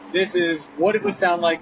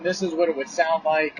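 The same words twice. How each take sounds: First: Heavy wind noise is heard behind the voice. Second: Light wind noise is heard behind the voice. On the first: "Now my windows are down all the way" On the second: "now my windows are cracked about a couple of inches"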